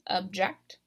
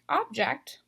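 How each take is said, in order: First: The stress is on the last syllable. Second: The stress is on the first syllable. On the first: It names an action. "I'm stressing this last syllable" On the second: It names a thing. "unlike object"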